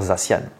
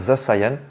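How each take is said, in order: First: The name is said with a plain French reading. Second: The name is said like English 'the cyan'. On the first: This is the simpler everyday French way. "on va dire Zacian, simplement. En français" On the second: This follows the name's English origin. "Normalement, ça devrait se dire Zasayan"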